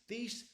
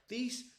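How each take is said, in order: The two takes are said the same way.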